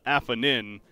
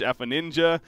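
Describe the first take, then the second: First: The name ends on 'nin' with no 'ja'. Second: The name ends with a 'ja' syllable. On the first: "apparently is is supposed to be pronounced uh" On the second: "people just put the J at the end"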